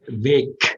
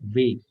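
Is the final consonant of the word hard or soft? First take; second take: hard; soft. First: The final consonant is a hard k-like sound. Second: The final consonant is a softer g-like sound. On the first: The speaker calls it wrong. "Eso sería demasiado fuerte" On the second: The speaker calls it right. "Pero es un ruido así parecido"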